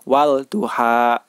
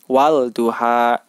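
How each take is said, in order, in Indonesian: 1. Bunyi L pada artikel diucapkan dengan jelas. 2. Bunyi L pada artikel diucapkan dengan jelas.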